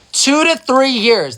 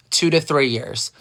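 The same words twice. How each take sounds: First: "Two to three years" much higher, louder and slow; emphatic repeat. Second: Said in the usual way. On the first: Real, not acted. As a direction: hammer home "Two to three years" in disbelief.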